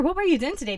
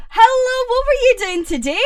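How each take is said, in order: First: Said in the usual way. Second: Higher, louder, eager question; excited hello. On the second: Real, not acted. Streamer greeting Pepsi, loud and eager. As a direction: greet a friend with a burst of energy.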